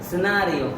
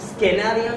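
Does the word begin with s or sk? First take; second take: s; sk. First: The word begins with a plain s sound. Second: The word begins with an sk sound. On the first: The speaker calls it right. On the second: The speaker calls it wrong.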